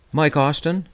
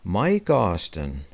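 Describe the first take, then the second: First: Higher, rising question on the name; asking to be sure. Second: Slow repeat. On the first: Writer checks the old golfer's name, questioning rise. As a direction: check the name with a clear lift at the end. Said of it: "I asked just to be sure". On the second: Clerk repeats the name back to the writer, slow and flat. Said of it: "the guy repeated". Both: A narrator's reading.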